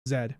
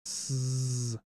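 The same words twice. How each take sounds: First: The letter name sounds like zed. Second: The letter name sounds like zee. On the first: This is the English way of saying it. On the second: This is the American way of saying it.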